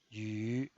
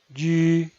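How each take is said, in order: First: The pitch dips low, then rises. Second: The pitch stays high and level. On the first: "desciende primero ... para ascender luego" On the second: "El primer tono es alto y sostenido"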